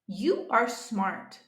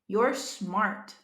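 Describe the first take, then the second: First: You and are are said as two separate words. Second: You and are are merged into one syllable.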